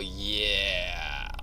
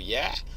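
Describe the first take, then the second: First: It sounds reluctant and unwilling. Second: It sounds like a plain, neutral answer. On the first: The speaker does not want to do it. "they ask me to do something I don't want to do" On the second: It simply answers a question. "you ask me a question, I go yeah"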